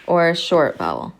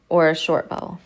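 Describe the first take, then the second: No difference in how they are said.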